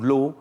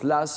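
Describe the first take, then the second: First: The name ends with a vowel sound. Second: The name ends with an s sound. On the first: "ça se prononce Lass ou Law" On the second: "ça se prononce Lass ou Law"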